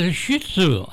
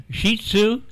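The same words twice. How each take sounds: First: "Shih Tzu" said like shit-sue; short i in "Shih", as in hit; mispronounced dog breed. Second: "Shih Tzu" said SHEE-tsoo, slow and rising; long ee in "Shih", as in she; corrected pronunciation. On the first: Retold or imitated. Co-host repeats the caller's answer, "Shih Tzu" said shit-sue. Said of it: "trying to pronounce that dog's name". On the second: Shown as a demonstration. Co-host echoes the correction, "Shih Tzu" said SHEE-tsoo. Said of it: "not what you just said".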